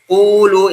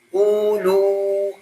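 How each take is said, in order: First: The lips round only after the consonant forms. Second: The lips round before the consonant forms. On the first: The speaker calls it right. "kalau makhraj dulu jadinya qu, qulu" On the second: The speaker calls it wrong. "jangan qulu"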